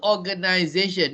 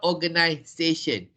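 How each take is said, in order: First: The middle consonant is a buzzing z sound. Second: The middle consonant is a hissing s sound. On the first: The speaker calls it right. "it is still organization" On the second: The speaker calls it wrong. "not organization"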